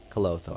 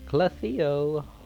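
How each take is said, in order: First: The name is said with two syllables. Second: The name is said with three syllables. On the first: The speaker calls it right. "C L O T H O. So, Clotho" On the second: The speaker calls it wrong. "I've been saying it wrong this whole time"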